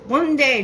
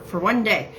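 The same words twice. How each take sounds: First: "One day" pushed higher and louder; emphatic imitation. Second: Said in the usual way. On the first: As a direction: punch "One day" high and loud, imitating him. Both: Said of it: "just like this".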